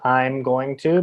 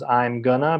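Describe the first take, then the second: First: I am is contracted; going to stays full. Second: I am is contracted; going to becomes gonna. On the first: "becomes I'm going to" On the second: "becomes I'm gonna"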